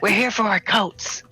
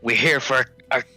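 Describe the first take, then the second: First: It is said in a put-on Karen voice. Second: It is said in the speaker's normal voice.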